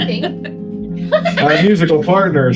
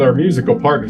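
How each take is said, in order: First: It is said with noticeably higher energy. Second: It is said with ordinary, calmer energy.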